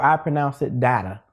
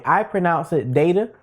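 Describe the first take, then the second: First: "data" said DAT-uh; DAT-uh pronunciation. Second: "data" said DAY-tuh; DAY-tuh pronunciation. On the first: Offering viewers a comment to post, "data" as DAT-uh. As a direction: make the first vowel of "data" short, as in cat. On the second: Offering viewers a comment to post, "data" as DAY-tuh. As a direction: make the first vowel of "data" a long A, as in day. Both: Shown as a demonstration. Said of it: "Do you pronounce it".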